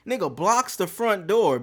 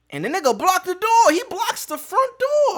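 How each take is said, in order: First: Said in the usual way. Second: Much higher and louder, outraged disbelief; incredulous outburst. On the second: Real, not acted. Telling friends how the guy blocked the door, shrill outrage. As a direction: squeal it like you can't believe he did that.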